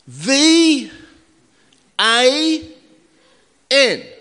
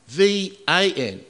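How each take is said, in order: First: It is said loudly. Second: It is said at normal volume.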